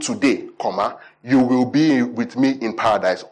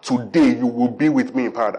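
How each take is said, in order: First: There is a pause after "today". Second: There is no pause after "today".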